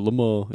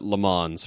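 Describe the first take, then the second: First: Le Mans is said with a French accent. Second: Le Mans is said with an English accent.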